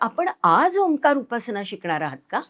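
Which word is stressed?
आज. The stress falls on the word आज. The question is whether you will learn today. "आज शिकणार आहात का आज नुसतीच चौकशी करताय"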